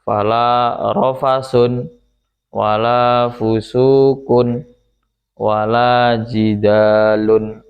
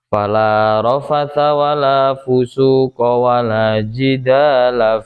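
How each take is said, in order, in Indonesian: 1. Ketiga kata benda itu semuanya berakhiran -un. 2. Ketiga kata benda itu semuanya berakhiran -a. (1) "dibaca rofa semuanya dengan apa namanya ditanwin" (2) "dibaca fathah semuanya"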